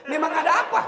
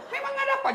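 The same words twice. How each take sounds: First: High, loud laughing question; mock gossiper. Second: Even higher, shrieking question on ada; shrill mock gossiper. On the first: Preacher mimics gossip about the wedding, high and laughing. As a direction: squeak it out like a nosy gossip. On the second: Preacher mimics gossip again, shrill and laughing.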